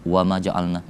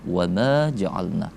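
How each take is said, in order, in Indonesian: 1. Vokal pada 'ma' dibaca pendek. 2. Vokal pada 'ma' dibaca panjang. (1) "tidak kita baca wama ja'alna gitu" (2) "kita baca panjang"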